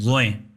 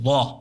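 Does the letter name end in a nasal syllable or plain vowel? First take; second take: nasal; plain vowel. First: The name ends with an added nasal syllable. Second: The name ends on a plain long vowel. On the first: This is how the letter is named in Urdu. "जिसको उर्दू में ज़ोएं पढ़ते हैं" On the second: This is how the letter is named in Arabic. "ज़ोएं नहीं कहेंगे, उसको कहेंगे ज़ो"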